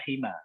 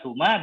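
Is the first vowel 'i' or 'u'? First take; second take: i; u. First: The first vowel is a front i. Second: The first vowel is a rounded u. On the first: "dan kasrah" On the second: "dengan dhammah sin"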